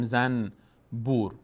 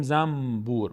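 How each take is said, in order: First: زنبور split as zan... bur with a clear n; wrong n reading. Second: زنبور said zambur with a long m; n turned to m. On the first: Teacher shows what Persian avoids, زنبور with separate clear n. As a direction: keep the n in زنبور and pause before bur. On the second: Teacher shows the Persian way, زنبور as zammm-bur. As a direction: hum the m in زنبور, slowly, into bur. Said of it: "به جای میم". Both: Shown as a demonstration.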